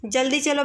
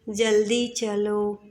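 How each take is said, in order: First: Said in the usual way. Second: Slow, unhurried जल्दी चलो; relaxed. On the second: Shown as a demonstration. Teacher showing the wrong relaxed delivery. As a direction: drawl it calmly, no urgency. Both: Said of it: "ऐसे आराम से नहीं बोलेंगे".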